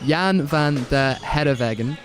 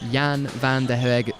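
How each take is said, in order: First: The name is pronounced carefully and clearly. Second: The name is pronounced carelessly and garbled. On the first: The speaker calls it right. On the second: The speaker calls it wrong.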